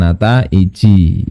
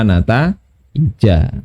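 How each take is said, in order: First: The word ends with an 'i' vowel. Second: The word ends with an 'a' vowel. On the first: The speaker calls it wrong. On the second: The speaker calls it right. "tanda jarnya nataij ini adalah fat fathah"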